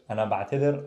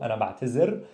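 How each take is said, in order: First: "ba'tadir" with voiced th as in "this"; "ba'tadir" keeping the original dhal sound; th-sound pronunciation. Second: "ba'tazir" with a clear z; zai pronunciation. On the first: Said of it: "pronounced as a the". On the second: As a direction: say "ba'tazir" with z in place of th. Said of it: "could be pronounced as a zai". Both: Shown as a demonstration.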